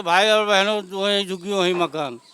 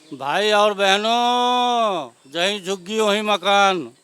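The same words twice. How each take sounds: First: Quicker, toned-down echo of a politician's call; mild mimicked rally slogan. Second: Long drawn-out mimicry of a politician's bellow; mock rally shout. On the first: (नेता के नारे की हल्की नकल) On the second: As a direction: stretch each word like a speech to a crowd. (नेता की नकल में खींच-खींचकर चिल्लाते हुए) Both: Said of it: "चिल्लाते थे गला फाड़ फाड़ के".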